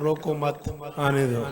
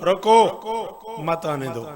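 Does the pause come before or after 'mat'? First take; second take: after; before. First: The pause falls after 'mat'. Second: The pause falls before 'mat'. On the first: Do not stop him, let him come. "मैं कहता हूँ रोको मत, आने दो" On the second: Stop him, do not let him come. "अब ये नाफिया जुमला है, मैं रोक रहा हूं"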